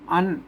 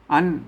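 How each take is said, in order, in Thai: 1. คำนี้พูดด้วยเสียงขึ้น 2. คำนี้พูดด้วยเสียงขึ้น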